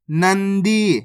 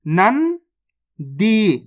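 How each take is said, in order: First: Said in the usual way. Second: नंदी very slowly, nan rising, long pause, then dee; split into syllables. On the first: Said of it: "तो मिलके बन जाएगा". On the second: Shown as a demonstration. Teacher breaking a word down for learners, split into syllables. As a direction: sound out नंदी in two separate parts. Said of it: "direct मात्रा का उच्चारण करके पढ़ेंगे".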